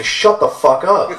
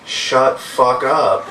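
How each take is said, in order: First: Slow, raised-pitch mock yell; loud retort. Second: Very slow imitation of a cute toddler; sweet two-year-old voice. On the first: Protective mom to the bum bothering her son, loud telling-off. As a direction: act out loudly telling someone off, drawn out. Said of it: "To which I loudly say". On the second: Two-year-old son copying mom to the bum, cute toddler voice. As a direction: mimic a toddler sweetly cursing, word by word. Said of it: "in his sweet, cute two-year-old voice".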